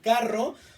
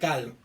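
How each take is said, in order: First: The middle consonant is a trilled R sound. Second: The middle consonant is an L sound. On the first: The speaker calls it right. "en vez de decir carro" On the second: The speaker calls it wrong. "distorsionando el fonema R de carro"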